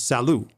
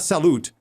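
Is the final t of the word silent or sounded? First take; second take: silent; sounded. First: The final t sound is left silent. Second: The final t sound is pronounced. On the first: The speaker calls it right. "the last letter of a word is not pronounced" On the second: The speaker calls it wrong. "It's not salute"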